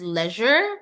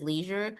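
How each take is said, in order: First: The word is said in a British way. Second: The word is said in an American way. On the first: "In British they they they pronounce it as leisure" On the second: "In America they pronounce it as leisure"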